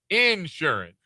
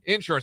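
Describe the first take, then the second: First: The stress is on the first syllable. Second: The stress is on the second syllable.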